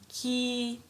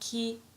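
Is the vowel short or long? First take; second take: long; short. First: The vowel is held long. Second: The vowel is short. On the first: "like this, prolonged" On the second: "if we have sound ki"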